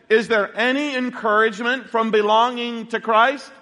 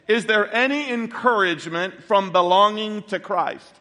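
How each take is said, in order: First: The voice rises at the end, like a question. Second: The voice falls at the end, like a statement. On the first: It is asked as a question. The speaker calls it right. "I want to rephrase it as a question" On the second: It is put forward as a claim. The speaker calls it wrong. "I said it as a statement"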